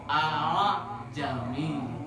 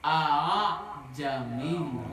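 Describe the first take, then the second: Both takes have the same delivery.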